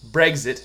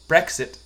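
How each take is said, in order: First: The middle consonants sound like 'gz'. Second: The middle consonants sound like 'ks'. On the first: The speaker calls it wrong. "you were saying Brexit" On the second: The speaker calls it right. "I call it Brexit, because it's exit, because it's spelled with an X"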